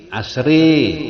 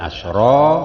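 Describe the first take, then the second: First: The final vowel is bent strongly toward i. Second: The final vowel is a plain open a.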